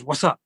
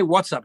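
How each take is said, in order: First: "What's up" run together as "wassup"; casual "wassup". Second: "What's" said in full, stress on it; formal "What's up". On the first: Retold or imitated. Comedian copying what the spirit said, casual run-together "What's up". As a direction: slur "What's up" into one word, rising at the end. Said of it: "It says". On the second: Shown as a demonstration. Comedian showing what the spirit didn't say, fully pronounced "What's up". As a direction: separate "What's" cleanly from "up", falling. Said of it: "But it doesn't say".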